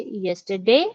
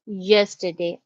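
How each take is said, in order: First: Yesterday with pitch going up at the end; rising yesterday. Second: Yesterday said level, no rise; flat yesterday. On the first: Teacher shows the right way, yesterday rising. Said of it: "I say yesterday". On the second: Teacher shows the wrong way, yesterday flat. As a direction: keep yesterday flat and falling. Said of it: "I don't say yesterday". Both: Shown as a demonstration.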